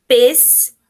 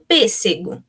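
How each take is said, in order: First: "Pêssego" broken into pês, se, go with long pauses; syllable by syllable. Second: Said in the usual way. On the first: Shown as a demonstration. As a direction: split "Pêssego" into three isolated syllables. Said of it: "a gente vai separar a sílaba". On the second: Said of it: "como é que ficaria aqui?".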